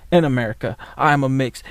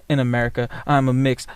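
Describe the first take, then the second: No difference in how they are said.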